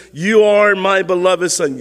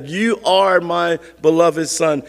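First: Said in the usual way. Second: Slow, separated stress on "You are"; emphatic YOU ARE. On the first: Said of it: "A voice came from heaven and says". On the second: Shown as a demonstration. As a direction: set "You are" apart, slowly and emphatically. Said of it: "It's emphatic".

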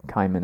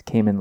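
First: "Cayman" with a first syllable rhyming with eye; altered Cayman pronunciation. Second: "Cayman" with an ay in the first syllable; usual Cayman pronunciation. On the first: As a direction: say "Cayman" as KAI-mun. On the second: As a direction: say "Cayman" as KAY-mun. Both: Shown as a demonstration. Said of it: "make me pronounce Cayman like Cayman".

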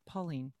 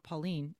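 First: "Pauline" as PAW-leen, weight on the start; Pauline, first-syllable stress. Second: "Pauline" as paw-LEEN, weight on the end; Pauline, mistaken stress. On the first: Correcting the name for friends, PAW-leen. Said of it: "Emphasis on Pauline". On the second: Showing how not to say the name, paw-LEEN. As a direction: stress the second syllable of "Pauline". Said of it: "it's not Pauline". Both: Shown as a demonstration.

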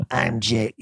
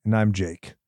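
First: Ghostface voice. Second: Said in the usual way. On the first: Shown as a demonstration. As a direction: growl it like the Scream caller. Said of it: "I'm trying to do the Ghostface voice". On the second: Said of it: "I'm gonna do, hold on".

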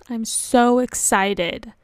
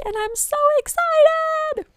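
First: Said in the usual way. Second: Very high, loud squeal of excitement; excited squeal. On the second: Real, not acted. Podcaster announcing her newly published website, squealing with excitement. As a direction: squeal it out, pitch shooting way up.

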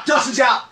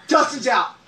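First: Calling out through laughter; laughing shout. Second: Said in the usual way. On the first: Real, not acted.

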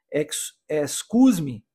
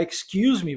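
First: "excuse me" read by Portuguese spelling, "es-KOOZ-mee" without the y-glide; Brazilian mispronunciation. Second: Said in the usual way. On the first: Shown as a demonstration. Brazilian learner reading English, "excuse me" mispronounced with Portuguese sounds. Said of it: "possivelmente falaria". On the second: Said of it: "Ao invés de você pronunciar excuse me".

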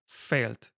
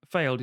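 First: "failed" ending in a crisp T. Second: Said in the usual way. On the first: Shown as a demonstration. Dialect coach correcting an actor on "failed", T at the end. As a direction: say "failed" with its final D turned to T. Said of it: "so with the T at the end". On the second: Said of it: "when you pronounce, um, failed".

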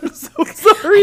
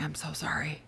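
First: High, loud, drawn-out wail through laughter; laughing mock apology. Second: Hushed, secretive whisper; whispered apology. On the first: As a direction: cry it out while cracking up. Retells apology, cracking up. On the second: Retold or imitated. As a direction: whisper it so only the child hears. Retells secret apology to son.

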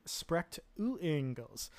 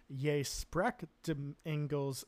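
First: "spreekt u Engels" with a clear "u" after "spreekt"; corrected Dutch question. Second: "Je spreekt de Engels", slow, punching "spreekt"; mistaken Dutch phrasing. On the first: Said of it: "I think you mean". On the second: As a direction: say "Je spreekt de Engels" slowly as a blunt statement. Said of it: "means you speak English, like a demand". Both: Retold or imitated.

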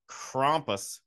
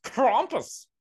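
First: Said in the usual way. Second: Krampus with a broad German "ah", pitched up; German pronunciation. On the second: Shown as a demonstration. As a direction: exaggerate Krampus as a German would, drawn-out and high. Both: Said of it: "I'm sure it's pronounced Krampus".

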